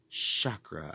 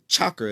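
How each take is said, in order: First: The word is said with a soft, smooth start. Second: The word is said with a hard, forceful start. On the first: The speaker calls it right. "softer and more smoothly" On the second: The speaker calls it wrong. "too forceful"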